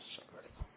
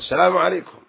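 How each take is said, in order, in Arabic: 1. يُقال السلام عليكم بالكاد مسموعًا، كالهمهمة. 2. يُقال السلام عليكم بصوت عالٍ مرتفع. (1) "فكأنه يهمس نفسه" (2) "فيرفع صوتك بها"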